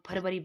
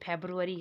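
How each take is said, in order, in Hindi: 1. यह 'far-v' से शुरू होता है, 'v' की आवाज़ के साथ। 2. यह 'feb-roo' से शुरू होता है, 'b' की आवाज़ के साथ। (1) "हम लोग फरवरी बोलते हैं" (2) "जैसे फेब्रुअरी है"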